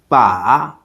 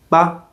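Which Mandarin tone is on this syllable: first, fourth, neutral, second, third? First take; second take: third; neutral. First: The pitch dips low, then comes up. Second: The syllable is short and light. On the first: It means a handle. "For the third tone" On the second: It marks a suggestion at sentence end. "there's also a neutral tone"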